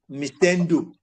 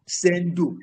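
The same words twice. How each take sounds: First: Mistendo with an opening "Mi" syllable before "stendo"; as-spelled pronunciation. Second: Sendo in two slow syllables, no opening "Mi"; slow down and lift Sendo, starting straight on the S; actual name pronunciation. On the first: Teacher showing how a friend's name looks, spelled-out pronunciation. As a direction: say Mistendo in full, as the letters suggest. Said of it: "which is to be s-, pronounced as". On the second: Teacher showing how a friend's name is really said, actual pronunciation. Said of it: "it's pronounced". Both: Shown as a demonstration.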